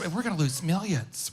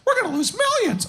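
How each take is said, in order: First: It is said in a normal speaking voice. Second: It is said in a high cartoon-mouse voice. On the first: The speaker calls it right. "she doesn't talk like that, but it's" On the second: The speaker calls it wrong. "it's like uh, Mickey"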